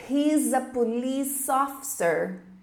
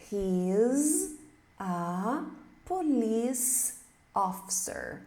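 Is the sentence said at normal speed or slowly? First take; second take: normal; slowly. First: The sentence is said at normal speed. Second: The sentence is said slowly.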